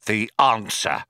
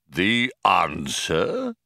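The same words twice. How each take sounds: First: Falling tune after a pause; solemn request. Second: Slow, rising question; questioning computer. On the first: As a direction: state it weightily, as the key request. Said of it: "he paused". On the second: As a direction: echo it slowly as a question. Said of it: "said Deep Thought". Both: A narrator's reading.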